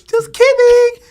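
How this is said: It is said in a very high voice.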